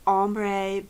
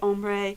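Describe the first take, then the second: First: The word is pronounced the English way. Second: The word is pronounced the French way. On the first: This is how most people say it. "most people say ombre" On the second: This is how the speaker herself says it. "I say ombre... the French word ombre"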